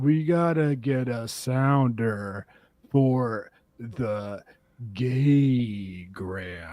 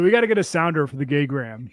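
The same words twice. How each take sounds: First: The sentence is spoken very slowly. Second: The sentence is spoken at normal speed.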